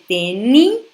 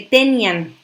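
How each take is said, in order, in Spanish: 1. La i lleva el acento y se separa de la a. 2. La i y la a se unen en una sola sílaba. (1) "le pongo el acento a la I para separar las sílabas" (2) "Si yo no rompo ese diptongo"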